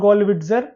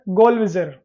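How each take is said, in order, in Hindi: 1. नाम में t ध्वनि उच्चारित होती है। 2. नाम में t ध्वनि मौन है। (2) "T silent होगा, so it should be"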